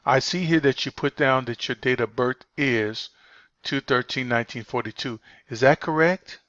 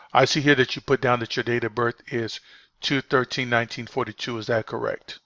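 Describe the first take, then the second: First: 2 Is that correct rising high at the end, doubtful; 3 let correct lift up as if unsure; 1 rising tune. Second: 2 Is that correct dropping low at the end, confident; 3 bring correct down with certainty; 1 falling tune. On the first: 4 trainer shows agents the doubtful high ending. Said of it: "If I go, if my voice go high pitch". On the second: 4 trainer shows agents the confident low ending. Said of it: "you notice that my voice went low". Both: Shown as a demonstration.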